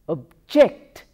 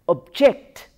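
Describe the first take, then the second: First: The stress is on the second syllable. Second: The same.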